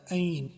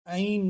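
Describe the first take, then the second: First: عین pushed out from the throat; throat ain. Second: عین said as a plain spelled name; wrong ain. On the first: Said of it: "عین کو نکالنا ہے". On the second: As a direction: say عین as just a letter name. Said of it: "عین نہیں پڑھنا". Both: Shown as a demonstration.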